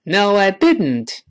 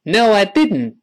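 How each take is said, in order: First: It is said slowly. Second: It is said fast.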